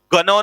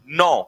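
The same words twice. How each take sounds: First: "गनो" with the silent G wrongly voiced as "ga-"; wrongly sounded G. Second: "नौ" as one syllable starting on N; silent G. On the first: Teacher shows students the misreading to avoid, "गनो" with G sounded. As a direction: say "गनो" with an extra hard G syllable before the N. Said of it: "इसे गनो नहीं पढ़ना है". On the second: Teacher drills the correct pronunciation, "नौ" with silent G. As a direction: say "नौ" with no G sound before the N. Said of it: "जी मत लगा देना". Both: Shown as a demonstration.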